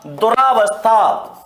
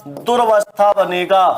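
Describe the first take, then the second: First: दुरावस्था said slowly with a long "aa" after "dur", as students wrongly say it; दुरावस्था drawn out as the common mistake; wrong form demo. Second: दुर्वस्था said as "durvastha" with r joined straight to v and no long "aa"; दुर्वस्था clipped as "dur-vas-tha"; correct form. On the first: Teacher slowly showing students the wrong form दुरावस्था. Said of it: "तो दुरावस्था नहीं होता". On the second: Teacher giving students the correct form दुर्वस्था. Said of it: "दुर्वस्था शब्द होता है". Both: Shown as a demonstration.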